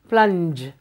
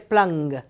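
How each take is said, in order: First: The word ends with a soft j sound. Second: The word ends with a hard g sound. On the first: The speaker calls it right. "use G as it is, the name of G" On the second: The speaker calls it wrong. "here you don't say plung"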